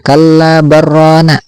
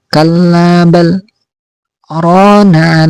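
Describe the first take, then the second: First: The words run together with no break. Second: A brief breathless break follows 'bal'. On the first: The speaker calls it wrong. "Itu bukan kalla barrana" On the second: The speaker calls it right. "berhenti sebentar dengan tanpa bernapas, kadarnya dua harokat"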